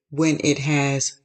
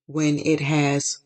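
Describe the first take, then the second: No difference in how they are said.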